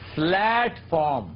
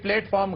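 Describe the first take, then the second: First: The word is said in a careful way. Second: The word is said in the everyday way. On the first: The speaker calls it right. "ये प्लेटफॉर्म है" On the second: The speaker calls it wrong. "ये प्लेटफॉर्म गलत है"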